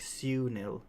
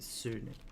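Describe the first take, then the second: First: The first vowel has a y-glide before it. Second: The first vowel is a plain oo sound. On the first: This is the English way of saying it. "I guess that would be more English, like Sunil. Su. You add like a little U" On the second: This is how it is said in the speaker's language. "in my language, we don't do that. We just say U"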